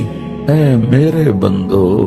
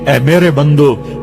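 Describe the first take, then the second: First: It is said in a soft, loving tone. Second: It is said in a plain, unaffectionate tone. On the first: The speaker calls it right. "क्या मोहब्बत है" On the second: The speaker calls it wrong. "इस लहजे में नहीं"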